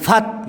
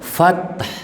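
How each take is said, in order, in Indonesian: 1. Kata ini diakhiri bunyi t biasa. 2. Kata ini diakhiri bunyi h yang berdesah. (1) "Jangan fat gitu" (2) "Fath ada hanya fath"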